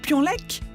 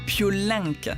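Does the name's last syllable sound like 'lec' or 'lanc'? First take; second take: lec; lanc. First: The last syllable ends in a hard 'k' sound. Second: The last syllable has a nasal vowel sound. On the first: The speaker calls it wrong. "J'ai dit Pionlec" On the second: The speaker calls it right. "il faut prononcer Piolinck"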